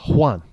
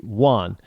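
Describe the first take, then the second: First: It is said with a Spanish pronunciation. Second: It is said with an American English pronunciation. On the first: "if you're coming from south of the border" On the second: "if you're Americanized"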